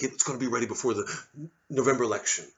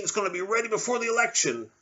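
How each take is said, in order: First: Quick quote. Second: High boastful Trump voice; Trump impression. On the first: Retold or imitated. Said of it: "say things like". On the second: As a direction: promise it like a salesman. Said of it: "Trump over there with the vaccine".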